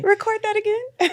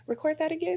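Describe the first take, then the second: First: High, loud hammed-up producer; mock producer. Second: High, laughing producer voice; mock producer. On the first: Mocking show producers ordering a retake, loud and high. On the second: Mocking show producers ordering a retake, laughing. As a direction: tease the producers. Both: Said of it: "they probably was like".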